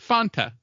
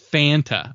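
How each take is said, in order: First: The first vowel rhymes with 'wanta'. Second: The first vowel does not rhyme with 'wanta'. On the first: "that's how you say it. You say it Fanta" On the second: "it's Fanta, apparently"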